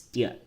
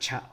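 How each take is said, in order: First: The syllable begins with a t sound. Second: The syllable begins with a ch sound. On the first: The speaker calls it right. "it's tia or tio" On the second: The speaker calls it wrong. "It's not cha or cho"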